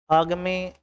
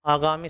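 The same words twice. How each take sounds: First: आगामी without its middle long a, aag-mi; faulty आगामी, squeezed to aagmi; wrong form demo. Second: आगामी with a long middle a, aa-gaa-mi; proper आगामी, said as aagaami; correct form demo. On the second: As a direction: sound the full gaa in आगामी. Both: Shown as a demonstration. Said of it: "आगामी सही होता है".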